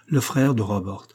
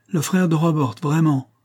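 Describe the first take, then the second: First: Calm, steady insistence; gentle firmness. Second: Higher, louder scornful echo of "Le frère de Robert"; proud young heiress scoffing at the idea. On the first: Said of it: "avec une douce fermeté". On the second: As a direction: toss "frère" back with contempt. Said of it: "d'un ton qui ressemblait au mépris". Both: A narrator's reading.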